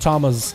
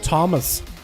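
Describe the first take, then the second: First: The name ends with a ringing z sound. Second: The name ends with a plain s sound. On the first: "but Thomas with a Z. You kind of let the Z kind of ring there" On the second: "It's almost like Thomas"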